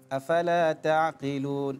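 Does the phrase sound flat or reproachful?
flat. It is said in a flat, mild way. The speaker calls it wrong. "itu kurang cocok"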